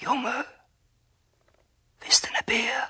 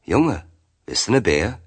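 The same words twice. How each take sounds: First: Eerie breathed whisper; whispering tree. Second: Put-on higher, louder call to a boy; old man calling out. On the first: A narrator's reading. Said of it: "so flüstert der Birnbaum". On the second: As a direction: offer it with a lifted, calling voice.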